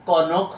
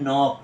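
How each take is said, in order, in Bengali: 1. শুরুর k, n-এর আগে উচ্চারিত হয়। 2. শুরুর k নীরব, এটি n দিয়ে শুরু হয়। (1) "এটা কিন্তু কনক হবে না" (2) "এটা হবে নক।"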